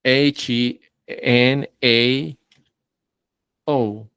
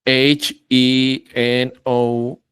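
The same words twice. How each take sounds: First: Corrected spelling. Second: Wrong spelling. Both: Shown as a demonstration.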